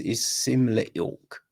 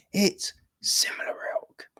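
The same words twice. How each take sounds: First: Said in the usual way. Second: Whispered aside. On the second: Real, not acted.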